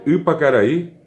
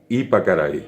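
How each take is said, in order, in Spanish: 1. La primera vocal es la sexta vocal del guaraní. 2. La primera vocal es un sonido i simple. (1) "en lugar de decir U" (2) "le va a salir la I"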